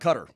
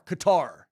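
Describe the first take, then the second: First: The stress is on the first syllable. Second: The stress is on the second syllable. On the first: "Let's say we want to call it Cutter" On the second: "little K A dash capital T A R"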